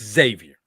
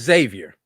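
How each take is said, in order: First: The name begins with a ks sound. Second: The name begins with a z sound. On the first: The speaker calls it wrong. "not X Xavier" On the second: The speaker calls it right. "The X is a Z in Xavier"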